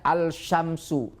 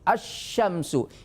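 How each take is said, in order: First: The l is pronounced before the sh. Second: The l is dropped and the sh is doubled. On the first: The speaker calls it wrong. "Tidak boleh baca" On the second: The speaker calls it right. "tapi bacanya"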